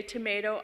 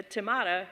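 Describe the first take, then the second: First: Tomato with a long "ay", to-MAY-to. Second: Tomato with an "ah", to-MAH-to; broad A. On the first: Quoting the song about accents, long A. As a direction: say tomato as tuh-MAY-toh. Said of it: "you say tomato". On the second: Correcting her song quote, broad A. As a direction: say tomato as tuh-MAH-toh. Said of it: "I say potato, uh, tomato". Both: Shown as a demonstration.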